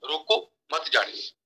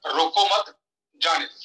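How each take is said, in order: First: Slow, with रोको cut off by a pause; pause after रोको. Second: रोको मत as one unit, break, जाने दो; pause after मत. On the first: Speaker repeating the first sentence, pause after रोको. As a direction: comma after रोको, मत joins जाने दो. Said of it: "रोको, कॉमा डाला था". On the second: Speaker showing the changed sentence, pause after मत. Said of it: "जहां पे लगा दूं". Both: Shown as a demonstration.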